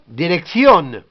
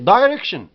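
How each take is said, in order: First: It is pronounced the Spanish way. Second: It is pronounced the English way, with sh. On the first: "en espagnol, direction" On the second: "En anglais, c'est direction"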